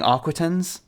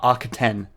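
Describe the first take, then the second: First: The word ends with a clear S sound. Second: The word ends without any S sound. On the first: The speaker calls it wrong. "I keep saying Arquitens" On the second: The speaker calls it right. "Arquiten is apparently how it's supposed to be pronounced"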